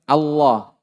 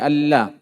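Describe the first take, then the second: First: The L is pronounced thick and heavy. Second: The L is pronounced thin and light. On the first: The speaker calls it right. "Yang pertama dibaca tebal" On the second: The speaker calls it wrong. "jangan dibaca Allah"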